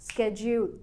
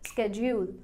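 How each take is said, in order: Both takes have the same delivery.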